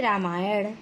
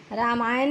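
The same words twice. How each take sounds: First: रामायण ending in curled ṇ; correct retroflex. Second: रामायण ending in plain n; dental error. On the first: Teacher correcting the error, रामायण with retroflex ending. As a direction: say रामायण with the tongue flapped back at the end. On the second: Teacher citing the error, रामायण with plain n. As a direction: say रामायण as "Ramayan" with tongue-tip n. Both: Shown as a demonstration. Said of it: "नहीं".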